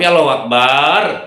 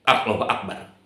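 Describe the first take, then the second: First: The last vowel of Akbar is drawn out long. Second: The last vowel of Akbar is short. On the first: It no longer means God is the greatest. The speaker calls it wrong. "dipanjang-panjang. Itu bukan Maha Besar" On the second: God is the greatest. The speaker calls it right. "Allah Maha Besar kekuasaannya"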